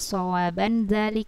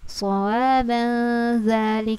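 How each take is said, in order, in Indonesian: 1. Bunyi n diucapkan dengan jelas dan tegas. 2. Bunyi n samar, menyatu dengan kata berikutnya. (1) "bukan sawaban zalik" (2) "Nah, samar dia"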